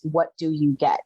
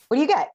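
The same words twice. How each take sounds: First: Said in the usual way. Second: Repeated higher, frantic; the question jumps up in alarm; rising panic. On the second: Retold or imitated. Mother in burning house asks herself again, panicked. Panicking over five minutes inside.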